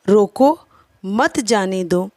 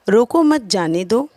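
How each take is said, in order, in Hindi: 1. शब्द 'रोको' के बाद विराम है। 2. यह बिना किसी विराम के एक ही लय में कहा जाता है। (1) "न जाने देने के विषय में कहा जा रहा है" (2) "पहले वाक्य में कही गई बातें अस्पष्ट हैं"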